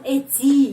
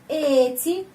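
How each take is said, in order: First: The stress is on the second syllable. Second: The stress is on the first syllable. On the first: The speaker calls it wrong. "bukan эти ya, bukan kesini penekanan" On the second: The speaker calls it right. "tetapi huruf e ini yang pertama"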